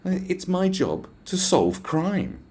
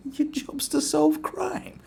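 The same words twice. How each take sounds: First: High, very slow, drawn-out declaration; self-important officer. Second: Very high, slow, laughing question; mocking disbelief. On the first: Retold or imitated. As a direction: imitate a pompous officer stating a mission. Mimics the officer's self-important answer. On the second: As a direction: echo the claim back as a laughable question. Incredulously echoes the officer's claim.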